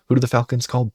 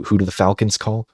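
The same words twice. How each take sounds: First: Pitched up, teasing the answer; a showman's second ask; hyped repeat. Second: Said in the usual way. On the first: Acted. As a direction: raise it to build suspense. Rhetorical question, repeated with more drive.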